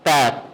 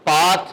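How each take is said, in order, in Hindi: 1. स्वर छोटा आगे का 'a' है। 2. स्वर लंबा खुला 'aa' है। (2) "पाथ नहीं"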